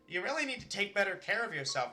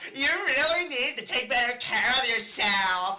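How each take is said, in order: First: It is said in a sincere, caring tone. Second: It is said in a mocking tone.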